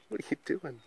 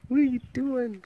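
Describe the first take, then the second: First: Soft, hushed what are you doing?; quiet question. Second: High, sing-song what are you doing?. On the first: Owner quietly asking her guinea pig, hushed question. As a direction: ask it gently, under your breath. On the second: Owner asking her guinea pig in baby talk, high sing-song. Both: Real, not acted.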